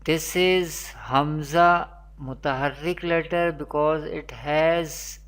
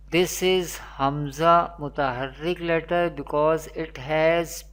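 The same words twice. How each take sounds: The two takes are said the same way.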